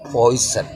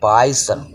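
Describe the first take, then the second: First: The first vowel sounds like 'oy'. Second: The first vowel sounds like 'eye'. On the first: The speaker calls it right. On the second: The speaker calls it wrong.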